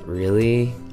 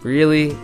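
First: It sounds only mildly annoyed. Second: It sounds more clearly angry. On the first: The matter is not a big deal. "pay attention again to the tone of my voice as I say it again" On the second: The speaker is more than a little upset. "makes me more than just a little angry"

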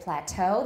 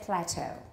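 First: The stress falls on the second syllable. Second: The stress falls on the first syllable. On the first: This is the American pronunciation. "they don't say plateau" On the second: This is the British pronunciation. "they say plateau"

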